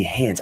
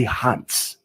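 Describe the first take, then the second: First: "hands" with a raised "ay"-like vowel; American "hands". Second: "hands" said as "hahnts"; open-vowel "hands". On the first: Teacher showing the way he says it, "hands" with an "ay" sound. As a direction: say "hands" close to "hay-ndz". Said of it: "The way I say hands". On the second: Teacher showing what he doesn't say, "hands" as "hahnts". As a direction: open "ah" in "hands", crisp ending. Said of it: "I don't say hands". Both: Shown as a demonstration.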